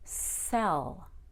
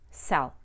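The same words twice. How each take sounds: First: The vowel is stretched with an added uh. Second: The vowel is short and plain. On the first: "I stretched out the vowel so that I could make a short E and a short U" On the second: "So I didn't just say sell"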